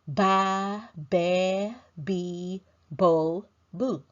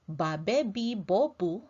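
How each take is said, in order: First: The vowels are drawn out and long. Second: The vowels are clipped and short. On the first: This is how an English speaker would say it. The speaker calls it wrong. "An English speaker might say" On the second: This is how Filipinos say it. The speaker calls it right. "the letters only have a short sound"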